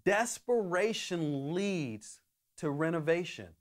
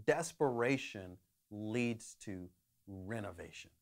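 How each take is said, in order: First: Said in the usual way. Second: "desperation leads to renovation" said low and much softer; quiet thesis statement. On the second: Shown as a demonstration. Preacher to congregation, first stating the theme: soft and low. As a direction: lay the key line down gently, softer and lower. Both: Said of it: "the one thought that I have for us today is".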